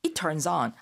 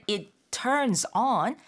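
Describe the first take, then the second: First: Said in the usual way. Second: Slow "it... turns... on", each word separate; distinct, word by word. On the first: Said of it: "아니라 it turns on". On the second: Shown as a demonstration. Teacher showing how to be clearly understood, word by word. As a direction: give "it", "turns", "on" a careful beat each. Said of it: "이렇게 조금 또박또박 얘기를 해야".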